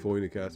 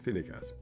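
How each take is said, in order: First: The first vowel sounds like 'oy'. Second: The first vowel sounds like 'ee'. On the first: The speaker calls it wrong. "isn't Phoenicas" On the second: The speaker calls it right. "it's Finicas"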